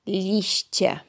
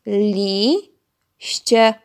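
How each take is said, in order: First: Said in the usual way. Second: "Liście" as two loud, drawn-out beats, Li, ście; split into syllables. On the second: Shown as a demonstration. Teacher counting syllables with children, "Liście" split into Li, ście. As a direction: pause inside "Liście" after a long, rising Li. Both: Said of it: "podzielić razem ze mną na sylaby".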